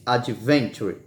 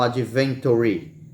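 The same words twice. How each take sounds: First: The word ends without a final vowel sound. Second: The word ends with an extra final vowel sound. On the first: The speaker calls it right. "a gente não pronuncia ele" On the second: The speaker calls it wrong. "não adventure"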